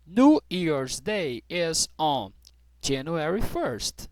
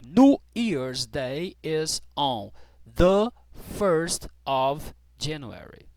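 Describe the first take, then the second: First: Slow, careful teacher model sentence; American version said slowly; slow model reading. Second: British version, "the" stressed; slow model reading with the. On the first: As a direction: spell it out slowly for learners. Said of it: "eu vou falar basicamente igual tá escrito aqui". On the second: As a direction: land on "the" before first. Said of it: "como é que eu falo aqui no inglês britânico". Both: Shown as a demonstration.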